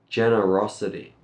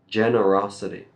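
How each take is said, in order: The two takes are said the same way.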